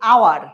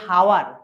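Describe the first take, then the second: First: The word begins with a vowel sound. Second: The word begins with an h sound. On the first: The speaker calls it right. "আমরা কি বলছি? আওয়ার" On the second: The speaker calls it wrong. "আমরা কিন্তু বলছি না যে হাওয়ার"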